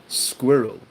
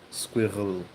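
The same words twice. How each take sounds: First: Said in the usual way. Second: SQUIRREL slowly, its R pulled back into the throat; slow SQUIRREL, losing the English R; difficult German-style R. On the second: Shown as a demonstration. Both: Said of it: "'cause it's that R".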